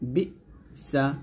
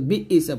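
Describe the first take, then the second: First: A sharp glottal stop follows 'bi' before 'sa'. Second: An extra vowel sound follows 'bi' before 'sa'. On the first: The speaker calls it right. "বলবেন বি সা" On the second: The speaker calls it wrong. "বি ইসা বলবেন না"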